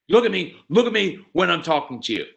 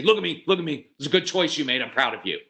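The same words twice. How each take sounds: First: Loud, high scolding "look at me"; angry demand. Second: Enthusiastic praise. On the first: Parent scolding a child for avoiding eye contact, angrily. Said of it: "you're angry at them and you're yelling at". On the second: Parent praising a child's good choice, with excited intensity. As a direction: praise the kid with real intensity. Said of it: "We never come home and say". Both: Retold or imitated.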